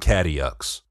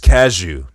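First: The name is said the outsider way. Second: The name is said the local Detroit way. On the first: The speaker calls it wrong. "not Cadillux" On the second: The speaker calls it right. "It's Cashew"

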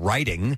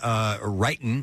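First: The word ends with the full final G sound. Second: The word ends without the final G sound. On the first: "instead of writing" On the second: "You dropped your G's. You were saying writing"

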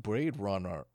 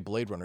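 First: It is said in an exaggerated put-on accent. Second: It is said in a plain, ordinary accent. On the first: The speaker calls it right. "He says it all racist sounding" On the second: The speaker calls it wrong. "he doesn't say Blade Runner"

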